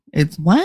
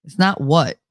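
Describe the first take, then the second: First: "what" with a twangy Jersey vowel; Jersey-accented "what", rising at the end. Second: Said in the usual way. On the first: Shown as a demonstration. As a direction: give "what" the whole Jersey whine. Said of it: "You gotta do the whole". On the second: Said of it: "that's what it is".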